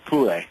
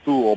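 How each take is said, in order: First: The word is said in a German-style way. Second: The word is said in an English-style way. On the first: This is how most people say it. "most people pronounce it Thule. ... is the proper German pronunciation" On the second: This is how the speaker would naturally say it. "I want to pronounce it Thule"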